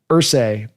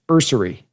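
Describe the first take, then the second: First: The name ends with a 'say' sound. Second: The name ends with a 'sery' sound. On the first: The speaker calls it wrong. "you say Irsay like Jim Irsay" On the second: The speaker calls it right. "but it's Irsay like nursery"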